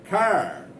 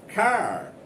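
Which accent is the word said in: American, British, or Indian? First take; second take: American; American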